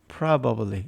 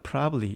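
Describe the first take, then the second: First: Every syllable of the word is said fully. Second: The word is shortened with a syllable dropped.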